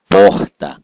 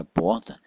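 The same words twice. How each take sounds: First: "porta" with POR punched loud, TA dropped; stress on POR. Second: Said in the usual way. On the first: Shown as a demonstration. Teacher showing the tonic syllable, stress on POR in "porta". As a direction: hit the first syllable of "porta" hard. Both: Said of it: "tem uma sílaba que é mais forte".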